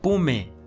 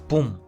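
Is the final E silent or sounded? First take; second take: sounded; silent. First: An extra final vowel is pronounced. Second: No extra final vowel is pronounced. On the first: The speaker calls it wrong. "Yo no lo voy a pronunciar" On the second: The speaker calls it right.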